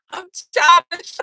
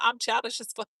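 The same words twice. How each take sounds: First: Put-on higher, louder, slow babyish whine on "childish"; mock childish voice. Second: Said in the usual way. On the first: Shown as a demonstration. Owning her childish side to viewers, babyish whine. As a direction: stretch out "I'm childish" like a whiny kid.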